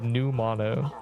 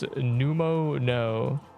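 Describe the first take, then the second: First: The word is split as new, then mono. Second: The word is split as pneumo, then no. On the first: The speaker calls it right. "instead of new mono" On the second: The speaker calls it wrong. "Pneumono as pneumo no"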